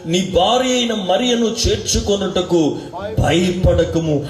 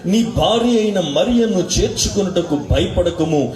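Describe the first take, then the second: No difference in how they are said.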